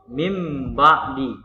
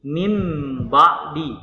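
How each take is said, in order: The two takes are said the same way.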